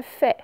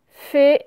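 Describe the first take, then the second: First: "fait" with a wide open è; mispronounced with è. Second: Said in the usual way. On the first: Shown as a demonstration. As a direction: say "fait" as "fè", not "fé". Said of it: "ce n'est pas". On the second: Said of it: "c'est le son et".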